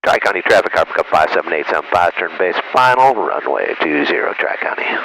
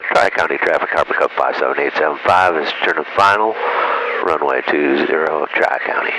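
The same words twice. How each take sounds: First: Calm radio call to traffic; pilot voice. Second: Low, steady radio call; pilot voice. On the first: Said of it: "Pilot voice again". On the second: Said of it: "that's my pilot voice". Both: Shown as a demonstration.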